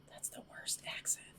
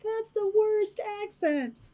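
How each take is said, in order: First: Whispered self-heckling; hushed, voiceless mock aside; Jim Gaffigan heckler aside. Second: Very high, slow put-on heckler voice; drawn-out falsetto mock critic; Jim Gaffigan heckler voice. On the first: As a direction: whisper it like a critic in the audience. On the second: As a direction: heckle yourself in a tiny high voice. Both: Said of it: "channeling my inner Jim Gaffigan".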